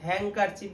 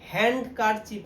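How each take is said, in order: First: No d sound; n runs straight into k. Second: A d sound is said after the n. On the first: The speaker calls it right. "হ্যাঙ্কারচিফ বললেই হবে" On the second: The speaker calls it wrong. "হ্যান্ডকারচিফ না"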